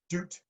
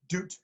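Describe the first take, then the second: First: The final T is released with a puff of air. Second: The same.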